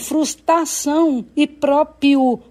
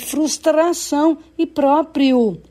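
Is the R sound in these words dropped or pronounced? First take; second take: dropped; pronounced. First: An R sound is left out of the words. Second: Every R sound in the words is pronounced. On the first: The speaker calls it wrong. "faltando R" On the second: The speaker calls it right. "quando o correto é"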